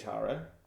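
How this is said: The name is said the British way. This is how English people say the name. The speaker calls it wrong. "we say we say Tara"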